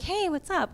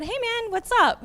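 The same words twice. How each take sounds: First: Said in the usual way. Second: High, bright-toned casual hey man, pitched way up; retold high friendly hello; friendly greeting. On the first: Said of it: "he's like". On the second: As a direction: greet him high and upbeat. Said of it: "I said".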